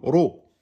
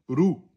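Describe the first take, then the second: First: The syllable has an 'o' vowel. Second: The syllable has an 'oo' vowel. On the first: The speaker calls it right. "Ro, pas rou, ro" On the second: The speaker calls it wrong. "pas rou"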